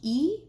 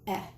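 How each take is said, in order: First: The vowel is long, like its letter name. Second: The vowel is short, a quick eh sound. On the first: "Vowels say their name" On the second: "and their short sound"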